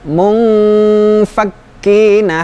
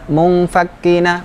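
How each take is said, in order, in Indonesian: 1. Dengung hidungnya ditahan sebentar. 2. Dengung hidungnya dipotong pendek dan tergesa-gesa. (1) "tetapi ditahan dulu" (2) "Jangan munfakkina"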